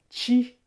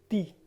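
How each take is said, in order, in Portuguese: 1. É falada com o sotaque mineiro. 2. É falada com o sotaque nordestino brasileiro. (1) "igual a gente fala aqui em Minas" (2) "ali no Nordeste ... eles falam ti"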